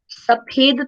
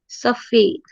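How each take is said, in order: First: The middle consonant is an aspirated p, lips closed. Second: The middle consonant is an f, lips apart. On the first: The speaker calls it wrong. "सफेद तो नहीं कहोगे ना" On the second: The speaker calls it right. "नुक्ता लगाने के बाद इसको उच्चारित करोगे सफेद"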